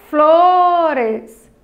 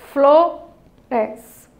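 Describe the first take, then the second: First: FLORES drawn out as flooo-res; syllable by syllable. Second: Flores broken by a clear pause: flo... res; split in two syllables. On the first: Teacher has children count the pieces of flores, syllable by syllable. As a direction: stretch the first syllable of flores, slightly louder. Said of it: "Quantas vezes?". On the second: Teacher confirms two pieces to the children, split in two syllables. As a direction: say flo, wait, then res. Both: Shown as a demonstration.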